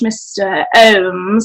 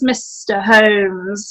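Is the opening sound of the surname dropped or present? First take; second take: dropped; present. First: The surname loses its opening sound. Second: The surname keeps its opening sound. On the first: The speaker calls it wrong. "drop some of your vowels" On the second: The speaker calls it right. "It is Mister Holmes"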